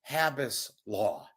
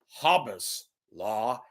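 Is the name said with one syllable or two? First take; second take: two; one. First: The name is said as Ha-bas, two syllables. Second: The name is said like Hobbes, one syllable. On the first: The speaker calls it right. "Hab, Hab" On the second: The speaker calls it wrong.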